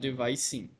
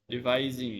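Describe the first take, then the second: First: The middle consonant is a hissing S sound. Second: The middle consonant is a buzzing Z sound. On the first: The speaker calls it wrong. "Not devising" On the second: The speaker calls it right. "the Z sound here"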